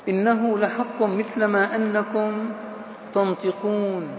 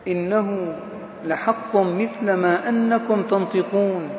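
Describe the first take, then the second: Both takes have the same delivery.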